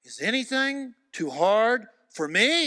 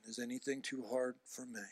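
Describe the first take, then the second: First: Slow, loud, high question as God; God challenging Moses, slow booming question. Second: "Is anything too hard for me?" spoken much softer; quiet question. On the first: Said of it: "God says". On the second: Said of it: "God always asking the question". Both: Retold or imitated.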